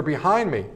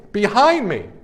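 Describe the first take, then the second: First: Said in the usual way. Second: BEHIND punched high, falling on "me"; emphatic repeat. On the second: Real, not acted. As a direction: hit "Behind" hard in disbelief.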